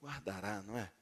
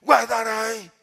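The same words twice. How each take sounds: First: Very soft, low, easy assurance; gentle reading. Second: Loud, sharp stern warning; threatening God. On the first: Preacher gives the other people's reading, softly gentle. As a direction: say it lightly and tenderly, as natural. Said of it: "E tem gente que diz". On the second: Preacher mimics God seen as religion, loud threatening order. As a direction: bark it as a menacing command. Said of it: "Deus assim". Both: Shown as a demonstration.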